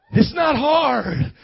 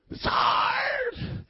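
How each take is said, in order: First: Loud, slow and raised, leaning on HARD; emphatic preaching rebuttal. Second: Very high, squealed fake cry; mock whine. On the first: Real, not acted. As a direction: firmly knock down the complaint. Preacher rebuts the mock complaint. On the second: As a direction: wail HARD as a hammed-up complaint. Mock complaint, later answered "not hard.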